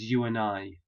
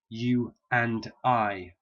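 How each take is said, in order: First: An extra intrusive sound links the words together. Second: The words are said separately without linking sounds. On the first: "a native speaker says you and I" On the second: "a language speaker is expecting to hear you and I"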